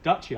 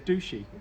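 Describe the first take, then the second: First: The first syllable sounds like 'dutch'. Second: The first syllable sounds like 'douche'. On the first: This is how the speaker says the name. "So Dutchy, I say" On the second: This is how someone else says the name. "She always says douchey. Sounds wrong"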